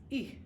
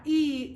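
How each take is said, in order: First: E cut short as a brief "ih"; soft, short E, not held. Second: E stretched out loud as "eee"; wrong E, held long and loud. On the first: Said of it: "It's a short E". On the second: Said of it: "It's not E". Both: Shown as a demonstration.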